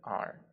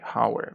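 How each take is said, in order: First: The word begins with a vowel sound, no 'h'. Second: The word begins with an audible 'h' sound. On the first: The speaker calls it right. "we say R" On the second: The speaker calls it wrong. "we don't say Howard"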